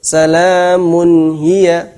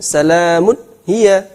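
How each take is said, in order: First: Salamun hiya slow and supple; smooth recitation. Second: Salamun hiya with nun cut short; wrong reading. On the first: Teacher showing the right reading. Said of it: "Tetap bacanya lentur". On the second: Teacher showing how not to read. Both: Shown as a demonstration.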